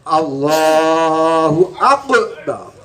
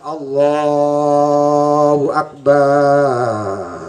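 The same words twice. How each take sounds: First: It is said too quickly, rushed. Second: It is said slowly, drawn out too long.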